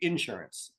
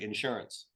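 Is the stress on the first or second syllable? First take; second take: first; second. First: The stress is on the first syllable. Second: The stress is on the second syllable. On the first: This is how southerners say it. "In the South, they say insurance" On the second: This is how northerners say it. "In the North, we say insurance"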